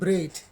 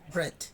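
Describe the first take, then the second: First: It is said with Igbo-influenced pronunciation. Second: It is said with careful standard pronunciation. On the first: The speaker calls it wrong. "instead of saying bread" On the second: The speaker calls it right. "I'm cautious"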